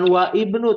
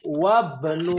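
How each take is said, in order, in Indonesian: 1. Vokal i di awal ibnu dibaca. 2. Vokal i dihilangkan dan wa langsung menyambung ke bnu. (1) "bukan wa ibnu. Tadi ada yang baca wa ibnu tuh" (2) "kalau nempel dengan wa menjadi wabnu"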